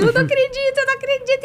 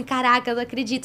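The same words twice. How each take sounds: First: Very high mock tearful wail; imitated crying. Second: Soft, quick retold disbelief; all cried out. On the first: Actress crying to her boyfriend over the casting news, high mock sobbing. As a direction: squeak it out as if overcome with tears. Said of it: "E eu chorando, chorando". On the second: Actress arriving to record after crying it all out, quiet quick disbelief. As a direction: say it under control, softly and quickly. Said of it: "já tinha chorado tudo".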